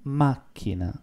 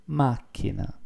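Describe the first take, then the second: First: "Macchina" said softly with a double c, MAC-china; Italian pronunciation. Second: "Macchina" repeated softly, stress on MAC; Italian pronunciation. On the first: Teacher showing students how to say car in Italian. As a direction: model "Macchina" quietly, stress the first syllable. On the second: Teacher repeating the word for car for students. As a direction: say "Macchina" again for them to repeat. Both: Shown as a demonstration. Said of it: "How to say car in Italian?".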